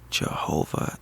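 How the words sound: The word is barely whispered. A desperate plea for help. "So I just barely whispered the word"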